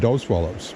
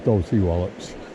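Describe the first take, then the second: First: The first part is said as one syllable. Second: The first part is said as two syllables. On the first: The speaker calls it wrong. "I always pronounce it Dos Wallops" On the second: The speaker calls it right. "the more correct way is Dorsey Wallops"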